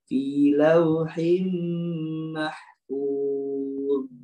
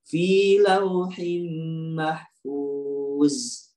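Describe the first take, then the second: First: The last consonant is a soft th-like sound. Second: The last consonant sounds like a plain z. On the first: The speaker calls it right. "Tempelin aja dia" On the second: The speaker calls it wrong. "Kalau turun ke bawah jadi za"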